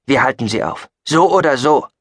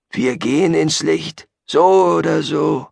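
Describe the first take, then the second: First: Firm resolve, rising louder and higher; decisive. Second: Gabriel. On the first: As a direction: settle it, no argument. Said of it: "entschied Chayton". (entschlossen, mit Nachdruck) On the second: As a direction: proclaim it with a zealot's certainty. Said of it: "sagte Gabriel". (langsam und hoch, feierlich verkündend) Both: Acted.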